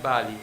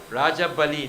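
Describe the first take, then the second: First: "Bali" alone, falling, as the name to avoid; wrong name. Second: "Raja Bali" with both words, stress on "Raja"; correct name. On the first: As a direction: say "Bali" without "Raja", as the wrong form. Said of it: "not Bali". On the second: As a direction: say it as "Raja Bali", not just "Bali". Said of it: "Ra-, sorry". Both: Shown as a demonstration.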